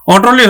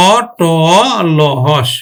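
First: Said in the usual way. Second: অটল spelled very slowly, each open ô held long; open-vowel pronunciation. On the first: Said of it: "অটলই হবে". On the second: Shown as a demonstration. Teacher shows the open sound to students, অটল drawn out sound by sound. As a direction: stretch অটল into ô... ṭô... lô, then হস. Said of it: "বিবৃত উচ্চারণ হবে".

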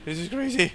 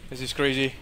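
First: Much higher frantic repeat; real overwhelmed outburst. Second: Said in the usual way. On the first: Real, not acted. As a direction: voice jumps up in disbelief.

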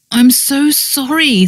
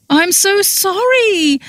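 First: Contrite. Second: Very high, drawn-out wailed apology; wailing. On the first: Friend squeezing hands of mortified woman, contrite. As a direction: apologise gently, drawing it out. Repeated apology, milder than wail. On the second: Friend confessing to mortified woman, wailing. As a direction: wail it, pleading and slow. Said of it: "she wailed". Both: A narrator's reading.

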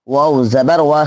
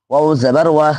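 Both takes have the same delivery.

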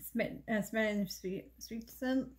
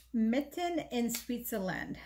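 First: Stumbling over "Switzerland", restarting with an uh; tongue-tied. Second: "Smitten in Switzerland" slowly, word by word; careful retry. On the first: Vlogger fumbling a palette name to viewers, tongue-tied. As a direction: trip on "Smitten in Switzerland", breaking off at "Swe-". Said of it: "What's it called?". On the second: Vlogger finally getting the palette name out, slow and careful. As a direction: sound out "Switzerland" slowly and deliberately. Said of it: "There we go". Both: Real, not acted.

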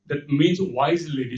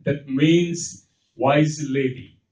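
First: Said in the usual way. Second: Slow and deliberate on "That means wise lady"; unhurried teacher explaining; slow, deliberate gloss. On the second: Shown as a demonstration. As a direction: spell out the meaning slowly for the class.

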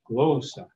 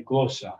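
First: Glossa with the voice rising then dropping on GLO; rise and drop. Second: GLO-ssa, plain stress on the first syllable of glossa; just stress GLO in glossa, no pitch swoop; simple stress. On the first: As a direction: let the pitch rise and fall in glossa. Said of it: "trying to make my voice rise and drop". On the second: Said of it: "We're just gonna put stress on it". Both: Shown as a demonstration.

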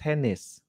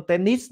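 First: "tennis" soft, falling and natural; correct "tennis". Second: "tennis" with a high rising tune, the student's error; mock the wrong reading. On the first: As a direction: model it right. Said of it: "bạn sẽ phát âm là". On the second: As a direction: imitate the mistake. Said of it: "các bạn không phải phát âm". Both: Shown as a demonstration.

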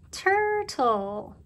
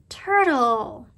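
First: "Turtle" stretched higher into tur-tle; syllable by syllable. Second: Said in the usual way. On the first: Shown as a demonstration. Teacher asks how many syllables you hear, "Turtle" drawn out in parts. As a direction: draw out both halves of "Turtle". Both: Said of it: "How many syllables do you hear?".

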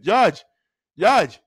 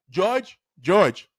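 First: Mock Haitian accent on the name. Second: Said in the usual way. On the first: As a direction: imitate a Haitian teacher calling a pupil. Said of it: "with the accent".

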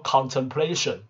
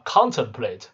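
First: Contemplation with PLA stressed; stress on third syllable. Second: Contemplate with the first syllable stressed. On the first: Teacher contrasting noun with verb for learners, third-syllable stress in contemplation. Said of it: "重音变是摆第三个音节". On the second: Teacher contrasting verb with noun for learners, first-syllable stress in contemplate. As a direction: hit CON in contemplate. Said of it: "你稍微注意一下". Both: Shown as a demonstration.

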